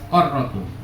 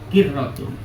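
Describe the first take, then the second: First: The first vowel is an a sound. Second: The first vowel is an i sound. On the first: "Ada yang baca fathah" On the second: "huruf qaf dibaca kasroh"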